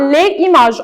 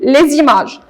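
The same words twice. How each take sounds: First: The words are kept separate with no z sound. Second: A z sound links the two words together. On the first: The speaker calls it wrong. "On ne dit pas les images" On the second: The speaker calls it right. "on dit les images"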